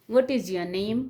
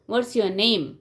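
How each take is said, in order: First: The voice rises at the end. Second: The voice falls at the end. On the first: It is a friendly, informal question to a child. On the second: It is a formal question in an interview.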